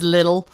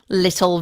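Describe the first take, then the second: First: It is said in an American accent. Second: It is said in a British accent. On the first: "versus American English"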